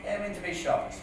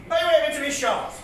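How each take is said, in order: First: Quiet aside. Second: Projected comic-verse delivery; recited punchline. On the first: Real, not acted. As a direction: drop out of the recital and mutter it. Quiet aside repeating the line. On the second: Acted. Comedian delivering the cowboy rhyme to the crowd, declaimed. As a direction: declaim it to the room. Recited line, then muttered repeat.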